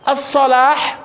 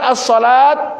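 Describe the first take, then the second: First: The word ends with a strong h sound. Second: The word ends with a t sound. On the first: The speaker calls it wrong. "menggunakan hak seperti hayya 'alal falah, itu salah" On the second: The speaker calls it right. "Yang benar as-salat itu pakai ta marbutah"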